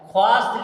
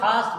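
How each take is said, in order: First: A w sound follows the kh. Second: No w sound follows the kh. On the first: This follows the spelling. The speaker calls it wrong. "ख्वास्त लिखा जाएगा" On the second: This is how it is read. The speaker calls it right. "मगर खास्त पढ़ा जाएगा"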